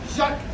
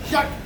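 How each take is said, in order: Both takes have the same delivery.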